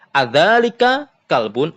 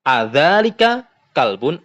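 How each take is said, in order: First: Adzalika kalbun with the pitch rising at the end as a question; questioning intonation. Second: Adzalika kalbun asked with a rising question tune; questioning intonation. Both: Shown as a demonstration. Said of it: "Perhatikan intonasinya". (intonasi tanya naik pada Adzalika kalbun)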